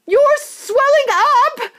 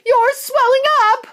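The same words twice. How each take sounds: First: Very high, slow, loud scream; mother screams again, drawn out. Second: Very high loud scream; screaming mother. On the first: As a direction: stretch the scream out in horror. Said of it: "screamed Missus Beauregard again". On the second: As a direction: scream in horror. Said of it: "screamed Missus Beauregard". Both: Acted.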